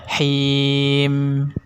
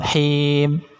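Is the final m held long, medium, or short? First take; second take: medium; short. First: The final m is held a moderate time. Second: The final m is cut too short. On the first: The speaker calls it right. "sedang-sedang saja" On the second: The speaker calls it wrong. "Kalau him itu kurang"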